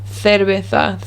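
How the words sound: The c is said with a th sound. This is the peninsular Spanish way of saying it. "it's a th"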